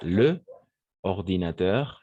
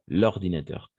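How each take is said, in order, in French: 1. La voyelle de l'article est conservée devant le nom. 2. La voyelle de l'article est élidée devant le nom. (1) "parce que c'est le ordinateur" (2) "on va faire l'élision"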